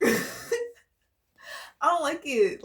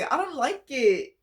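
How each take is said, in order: First: Slow, whiny fake sob through the words; mock crying. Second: Said in the usual way. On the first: Reader mock-whining about a bad energy, slow fake crying. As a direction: drag it out like a pretend cry.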